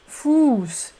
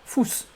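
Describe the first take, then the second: First: The vowel is held long. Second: The vowel is cut short. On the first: The speaker calls it right. "le OU de Fuß est un OU long" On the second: The speaker calls it wrong. "et non pas"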